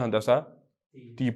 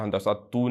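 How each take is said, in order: First: The word ends with an 'ee' vowel. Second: The word ends with an 'oo' vowel. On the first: The speaker calls it right. "हंदसा ती पढ़ेंगे इसको" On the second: The speaker calls it wrong. "पेश डली हुई है, हंदसा तू नहीं है"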